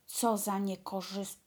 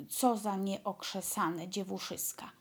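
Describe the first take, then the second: First: Stumbling on niekorzys-; misread word. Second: Nieokrzesane said cleanly and in full; corrected word. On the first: Dwarf scolding the sisters, fumbling the word mid-insult. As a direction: trip over niekorzys- and cut it off. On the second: Dwarf scolding the sisters, now saying nieokrzesane correctly. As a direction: get nieokrzesane right on the retry. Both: Acted.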